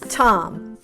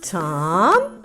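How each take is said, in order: First: The word is said at normal speed. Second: The sounds are blended somewhat faster. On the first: "And now just normally as if we were reading this name in a story" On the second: "Now a little faster"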